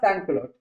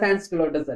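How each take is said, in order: First: The word ends without any s sound. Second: The word ends with an audible s sound. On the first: The speaker calls it right. "ഇതിൽ സൈലന്റ് ആണ് മക്കളെ" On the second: The speaker calls it wrong. "സാൻക്ലോട്ടേഴ്സ് അല്ല"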